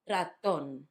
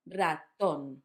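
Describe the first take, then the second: First: The stress is on the last syllable. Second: The stress is on the last syllable.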